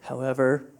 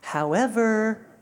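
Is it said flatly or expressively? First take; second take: flatly; expressively. First: It is said flatly, like dull reading. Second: It is said expressively, with feeling.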